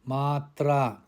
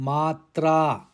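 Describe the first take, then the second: No difference in how they are said.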